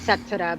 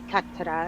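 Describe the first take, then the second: First: The word begins with an S sound. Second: The word begins with a K sound. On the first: "if it was an S it would be Setura" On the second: "if it's a C it'd be Ketura"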